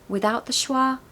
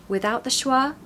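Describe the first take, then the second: Both takes have the same delivery.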